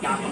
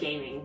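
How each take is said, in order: First: It is said as a Chinese name. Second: It sounds like the English word gaming. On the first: The speaker calls it right. "it's pronounced Gaming. It's Chinese" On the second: The speaker calls it wrong. "It looks like gaming"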